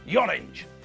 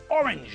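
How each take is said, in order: First: The word begins with a y sound. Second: The word begins directly with a vowel sound. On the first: The speaker calls it wrong. "not yorange" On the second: The speaker calls it right. "We pronounce them normally"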